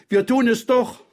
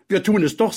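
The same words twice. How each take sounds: First: Put-on very high, insistent child; defiant girl. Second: Put-on high, firm childish echo; boy chiming in. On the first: (trotzige, sehr hohe Mädchenstimme) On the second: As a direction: back her up like a young boy. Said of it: "sagte auch Petja". (bekräftigende, hohe Jungenstimme) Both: A narrator's reading.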